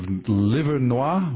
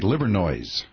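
First: The name is said the French way. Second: The name is said the anglicized local way. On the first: This is how the French name would properly be said. "Instead of Livernois" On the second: This is how locals actually say the name. "we say Livernoise"

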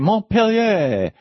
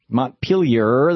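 First: The word ends in a vowel, with no R. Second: The word ends with an audible R sound. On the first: "where's the R? It went away" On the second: "Instead of saying Montpellier"

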